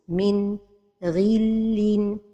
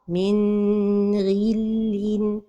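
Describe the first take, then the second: First: There is a pause after the n. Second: The n is held too long. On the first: "c'est la pause" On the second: "c'est de prolonger son temps"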